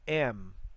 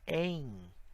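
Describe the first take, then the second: First: The vowel is oral, like English. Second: The vowel is nasal, ending in i. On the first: The speaker calls it wrong. "A gente não fala am, como em inglês" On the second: The speaker calls it right. "um i nasal"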